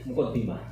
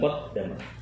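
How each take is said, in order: First: The vowel after the double D is 'i'. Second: The vowel after the double D is 'a'. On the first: The speaker calls it right. "tapi kita membaca muqaddimah" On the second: The speaker calls it wrong. "bukan muqaddamah"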